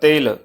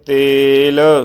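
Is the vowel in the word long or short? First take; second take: short; long. First: The vowel is cut short. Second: The vowel is held long. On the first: The speaker calls it wrong. "ਲਘੂ ਧੁਨੀ ਦੇ ਵਿੱਚ ਜੇ ਉਚਾਰਨ ਕਰਾਂਗੇ ਤਾਂ ਬਣੇਗਾ ਤੇਲ, ਸੋ ਇਹ ਇਸ ਦਾ ਗਲਤ ਉਚਾਰਨ ਹੋਵੇਗਾ।" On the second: The speaker calls it right. "ਸੋ ਇਹ ਦੀਰਘ ਧੁਨੀ ਉਚਾਰਨ ਹੋ ਰਹੀ ਹੈ।"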